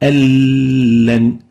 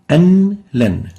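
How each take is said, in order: First: The n merges into a doubled l. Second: The n is pronounced before the l.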